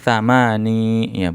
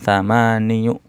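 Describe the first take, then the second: First: The word ends in a plain 'ee' sound. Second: The word ends in a 'yoo' sound. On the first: The speaker calls it right. "cuman iya-nya itu bunyinya sukun ya" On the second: The speaker calls it wrong.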